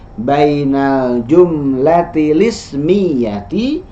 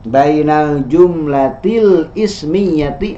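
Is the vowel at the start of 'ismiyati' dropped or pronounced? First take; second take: dropped; pronounced. First: The vowel starting 'ismiyati' is dropped and linked. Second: The vowel starting 'ismiyati' is pronounced separately. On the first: The speaker calls it right. "Hamzah wasal kalau di tengah tidak dibaca i-nya" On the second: The speaker calls it wrong. "ini salah pengucapannya ya"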